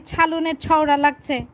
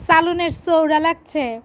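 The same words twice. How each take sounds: First: ছালুনের ছওড়া with a "chh" start on both words; mock the pretenders: ছালুনের ছওড়া with aspirated ছ; teasing imitation of self-proclaimed Dhakaiyas; fake Old Dhaka sound. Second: চালুনের চৌড়া with plain unaspirated চ; proud true Old Dhaka speech, a bit louder; real Old Dhaka pronunciation. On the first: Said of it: "আর নামধারী ঢাকাইরা". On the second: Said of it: "মানে, তরকারির ঝোল লেগেছে". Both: Shown as a demonstration.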